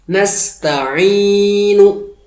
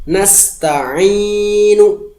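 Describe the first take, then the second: The two takes are said the same way.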